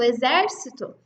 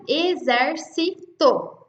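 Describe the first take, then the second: First: Said in the usual way. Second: "exército" slowly split as e-zer-si-to; syllable by syllable. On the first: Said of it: "se a gente colocar ali". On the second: Shown as a demonstration. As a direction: break "exército" into four separate syllables, slowly. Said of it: "importante a gente separar a sílaba". ("exército" devagar, separando as sílabas: e-zer-si-to)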